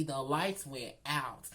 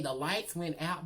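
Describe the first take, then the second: First: "the lights went out" drawn out slowly; slow down and land each word of "the lights went out"; emphatic repeat. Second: Said in the usual way. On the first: Real, not acted.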